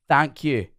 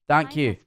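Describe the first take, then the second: No difference in how they are said.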